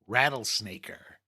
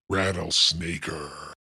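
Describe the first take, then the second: First: It is said in his normal voice. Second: It is said in a deeper voice.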